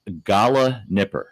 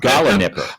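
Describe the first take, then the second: First: The word is said slowly and deliberately. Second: The word is said at normal speed.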